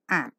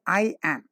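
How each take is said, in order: First: It is contracted into a single syllable. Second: It is said as two separate words. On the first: The speaker calls it right. "it's am" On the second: The speaker calls it wrong. "Don't say I am"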